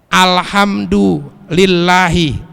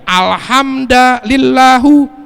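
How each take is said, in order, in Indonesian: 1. Kata ini diakhiri dengan vokal 'i'. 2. Kata ini diakhiri dengan vokal 'u'. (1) "lillahi dibaca kasroh" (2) "ini dibaca alhamdulillahu tuh, sah karena nggak merubah makna"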